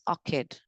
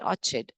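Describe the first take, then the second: First: The ch is said as a k sound. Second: The ch is said as a ch sound. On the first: The speaker calls it right. "it's orchid" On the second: The speaker calls it wrong. "It's not orchid"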